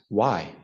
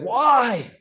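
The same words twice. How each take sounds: First: It is said with genuine inquiry. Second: It is said with indignation.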